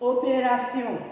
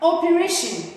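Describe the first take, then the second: First: It is pronounced with French sounds. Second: It is pronounced with English sounds. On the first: "the French version is opération" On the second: "operation in English"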